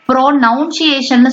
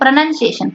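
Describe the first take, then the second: First: The second syllable sounds like 'noun'. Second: The second syllable sounds like 'nun'. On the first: The speaker calls it wrong. "ப்ரோனவுன்சியேஷன் சொல்ல மாட்டோம்" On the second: The speaker calls it right. "ப்ரனன் நன் அப்படிதான் சொல்லுவோம்"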